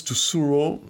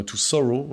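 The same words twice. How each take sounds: First: Said in the usual way. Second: English accent. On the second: Shown as a demonstration. Reviewer redoing a song title for viewers, English accent. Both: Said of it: "Vous avez vu mon super accent anglais".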